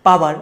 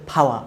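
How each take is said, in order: First: "পাওয়ার" with hard p and sounded r; unaspirated P, voiced ending. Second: "ফাওয়া" with breathy puff on p, no r; aspirated P, silent R. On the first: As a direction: say "পাওয়ার" the Bangla way, no puff. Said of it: "কিন্তু এটা পাওয়ার হবে না". ("পাওয়ার" প আর র স্পষ্ট) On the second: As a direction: say "ফাওয়া" British style, ending in a vowel. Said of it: "এটা হচ্ছে ফাওয়া". ("ফাওয়া" ফ দিয়ে, র ছাড়া) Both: Shown as a demonstration.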